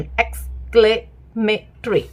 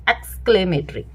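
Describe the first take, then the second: First: exclamatory said slowly, split into its parts; slowly broken up. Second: Said in the usual way. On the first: Shown as a demonstration. Teacher showing parents how a child breaks a word, slow. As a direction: stretch exclamatory out so a child can follow it. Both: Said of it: "मुझे ये ऐसे सही लगता है इसका pronunciation".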